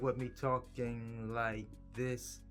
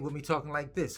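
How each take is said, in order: First: It is said slowly and calmly. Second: It is said quickly and energetically.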